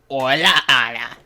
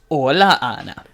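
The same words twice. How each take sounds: First: It is said in a put-on old lady voice. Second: It is said in the speaker's normal voice.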